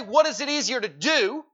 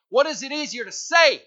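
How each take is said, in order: First: "do" set apart as the wrong word; stress on DO. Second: "say" hit loud, falling at the end; stress on SAY. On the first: Preacher showing what Jesus didn't say, stress on "do". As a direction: misquote the question, leaning on "do". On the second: Preacher quoting Jesus's exact question, stress on "say". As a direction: quote the question, punching "say". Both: Shown as a demonstration. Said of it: "He didn't say".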